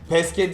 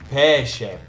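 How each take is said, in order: First: The middle consonant is a hard 'k' sound. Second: The middle consonant is a soft 'sh' sound. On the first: The speaker calls it wrong. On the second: The speaker calls it right.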